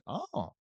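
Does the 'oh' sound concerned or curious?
curious. It sounds curious, with a high pitch. The listener is interested and wants to hear more. "But curious, like, oh, more high pitch"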